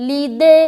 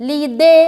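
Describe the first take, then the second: The two takes are said the same way.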